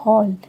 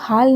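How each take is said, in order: First: The vowel is a rounded 'aw' sound. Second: The vowel is a plain open 'aa' sound. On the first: The speaker calls it right. "इसमें अ का sound है तो हॉल" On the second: The speaker calls it wrong. "इसको हम हाल नहीं बोलेंगे"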